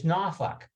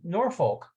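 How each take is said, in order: First: Some letters of the word are silent. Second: Every letter of the word is pronounced. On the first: The speaker calls it right. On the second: The speaker calls it wrong.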